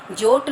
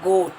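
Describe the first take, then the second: First: "जोट" with j in place of g; wrong J sound. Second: "गोट" with hard g; correct hard G. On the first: Teacher showing children the mistake, "जोट" with j. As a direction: say goat as "जोट". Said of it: "उसको जोट नहीं बोलते". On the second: Teacher answering her own question, "गोट" with hard g. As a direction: open "गोट" on a g, not a j. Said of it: "क्या बोलते हैं". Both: Shown as a demonstration.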